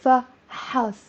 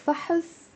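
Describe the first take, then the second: First: فحص split into fa, HAS; فحص in two separate, full syllables; clear "ha" syllable. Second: فحص as fa-hus, stress at the front; فحص, light second vowel; noun with short vowel. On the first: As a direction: give فحص a full "a" after ح. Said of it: "There's a ha". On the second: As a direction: say فحص together with a weak "uh". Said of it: "don't get confused with, between". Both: Shown as a demonstration.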